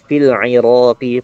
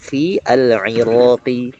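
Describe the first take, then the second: First: The article's vowel is dropped and linked. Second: The article's vowel is pronounced as a separate sound. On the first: The speaker calls it right. "fil iraqi bukan fi al iraqi" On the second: The speaker calls it wrong. "bukan fi al iraqi"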